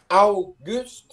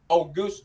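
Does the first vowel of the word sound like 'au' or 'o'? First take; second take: au; o. First: The first vowel sounds like 'au', as in 'ow'. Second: The first vowel sounds like a plain 'o'. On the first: This is the Norwegian way of saying it. "Chữ này đọc là au" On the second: This is the English way of saying it. "Trong tiếng Anh chữ này đọc AU, nó đọc như là chữ O đúng không?"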